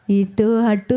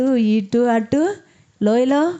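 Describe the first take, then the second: First: Said in the usual way. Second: Drawn out slowly. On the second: Shown as a demonstration. Pastor to congregation, dwelling on the valley, slowly drawn. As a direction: stretch ఇటు అటు very slowly, rising on అటు.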